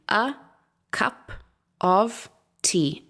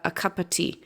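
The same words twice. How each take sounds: First: Each word is said fully and separately. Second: The words run together with weak schwa vowels. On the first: The speaker calls it wrong. "If we had to read all the words separately ... it doesn't sound natural" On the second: The speaker calls it right. "we would just have the schwa at the beginning and the schwa um, after the word cup"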